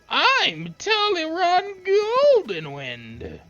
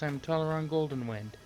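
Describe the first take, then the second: First: It is said in a put-on weak voice. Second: It is said in his normal voice.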